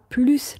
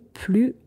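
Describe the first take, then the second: First: The final S sound is pronounced. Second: The final S sound is silent. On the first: The speaker calls it wrong. "On ne dit pas" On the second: The speaker calls it right. "on ne prononce pas le S"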